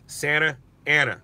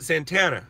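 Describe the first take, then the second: First: The name is said as separate words. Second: The name is run together into fewer syllables. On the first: "It's Santa Ana" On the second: "we pronounce it Santana"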